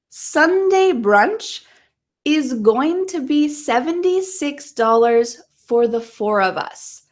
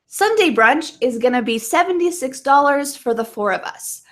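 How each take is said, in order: First: The sentence is spoken slowly and carefully. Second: The sentence is spoken quickly, at conversational speed. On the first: "One more time slowly" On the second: "I'm going to say it a couple times quickly"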